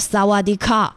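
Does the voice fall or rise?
falls. The voice falls, sounding masculine.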